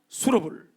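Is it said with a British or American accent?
American. The t is a flapped r-like sound, American style.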